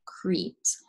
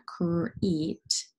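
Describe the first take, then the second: First: Said in the usual way. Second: "crete" split slowly into cr and eet; sounded out. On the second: Shown as a demonstration. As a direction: stretch "crete," blend first, then the rest. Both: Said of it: "C R kind of blending together".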